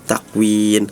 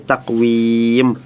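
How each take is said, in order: First: The word ends with an n sound. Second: The word ends with an m sound. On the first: The speaker calls it wrong. "dibacanya menggunakan nun" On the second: The speaker calls it right. "harusnya mim"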